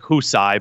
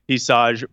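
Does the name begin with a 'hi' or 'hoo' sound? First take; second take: hoo; hi. First: The name begins with a 'hoo' sound. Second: The name begins with a 'hi' sound. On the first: The speaker calls it right. "it's like Husai" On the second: The speaker calls it wrong. "I'm pronouncing it wrong"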